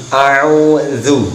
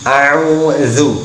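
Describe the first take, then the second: Both takes have the same delivery.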